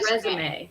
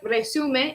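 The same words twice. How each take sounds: First: It is pronounced as the English noun. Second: It is pronounced as the Spanish word. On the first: "but we actually pronounce it like resume" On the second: "It looks like resume if you speak Spanish"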